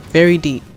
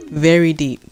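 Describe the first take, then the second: No difference in how they are said.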